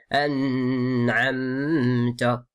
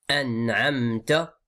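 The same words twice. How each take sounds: First: The n is held and nasalized before moving on. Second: The n is brief, with no nasal hold. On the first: The speaker calls it wrong. "on dit pas an'amta. Ça c'est une faute" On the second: The speaker calls it right. "c'est al-idhar, ça veut dire juste on montre, on prononce la lettre gentiment"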